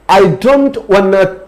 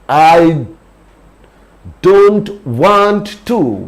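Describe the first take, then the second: First: 'Want to' is blended into one short word. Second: 'Want to' is said as two separate words. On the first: "wanna means want to"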